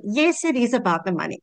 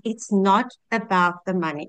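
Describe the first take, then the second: First: "Yes" punched at the start, "is" firmly set against "not"; correcting herself with a firm "Yes" and "is"; stress on yes. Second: "not" leaned on and falling, quoting Michelle; stress on not. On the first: Shown as a demonstration. Correcting Michelle's line for her viewers, "Yes" stressed. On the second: Retold or imitated. Repeating what Michelle says to viewers, "not" stressed. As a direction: press the word "not" in "it's not about the money". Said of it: "just like Michelle says".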